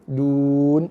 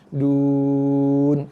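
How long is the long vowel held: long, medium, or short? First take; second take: short; long. First: The long vowel is held for two counts. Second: The long vowel is held for six counts. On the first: "dua harakat boleh" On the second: "Ataupun enam"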